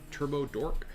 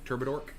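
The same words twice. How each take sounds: First: The name is said at a normal pace. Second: The name is said quickly, run together.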